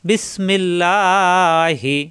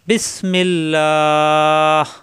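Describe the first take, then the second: First: The final 'lah' is short, ending in 'hi'. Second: The final 'lah' is long, ending on h. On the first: The reciter continues without stopping. "অক্ফ না করলে বিসমিল্লাহি, খাড়া জবরের জন্য একালিপ টান হি" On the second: The reciter stops at this word. "অক্ফ করলে ... লা এক তিন আলিপ টেনে হায় এসে অক্ফ হবে"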